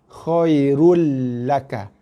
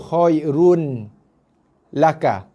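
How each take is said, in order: First: The n merges into a doubled l sound. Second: The n sound is heard before the l. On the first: The speaker calls it right. "Dengan cara bacaan bersabdu lah. Bacaan tasydid" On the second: The speaker calls it wrong. "Bukan lagi dibaca dengan run"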